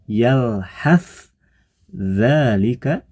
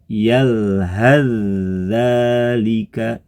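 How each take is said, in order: First: The s stays separate from the following dh. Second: The s merges into a doubled dh sound. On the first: This is the written form. "ditulis yalhas dzalika" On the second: The words are joined without stopping. "ketika dia wasol berubah menjadi yalhaz dzalika"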